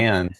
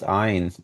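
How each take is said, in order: First: The name sounds like 'Anne'. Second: The name rhymes with 'mine'. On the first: The speaker calls it wrong. "as opposed to Anne" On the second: The speaker calls it right. "Ayn Rand is pronounced Ein as opposed to"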